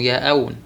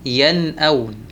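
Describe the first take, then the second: First: The n sound before the glottal stop is dropped. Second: The n sound before the glottal stop is clear. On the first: The speaker calls it wrong. "ما ينفع نقول ... ياءون" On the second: The speaker calls it right. "لابد من الإظهار"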